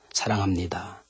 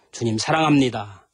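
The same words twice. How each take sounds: First: Soft confession. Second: Tender confession. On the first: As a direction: lower and softer, tender. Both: Shown as a demonstration. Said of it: "주님 사랑합니다"라고 고백 좀".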